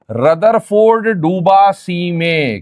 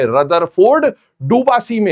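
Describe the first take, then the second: First: Very slow, each word set apart; slow demonstration. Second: Said in the usual way. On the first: Shown as a demonstration. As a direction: say "Rutherford डूबा सी में" slowly so it sticks. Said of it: "वो सुनिएगा". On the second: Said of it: "क्या बोला मैंने?".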